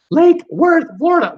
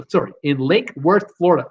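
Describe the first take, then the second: First: Lake Worth said much higher and louder; proud clean retake. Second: Said in the usual way. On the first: Shown as a demonstration. After fumbling the viewer's town, high triumphant retake. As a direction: land the name triumphantly, high and loud. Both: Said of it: "I'll, I'll get it out".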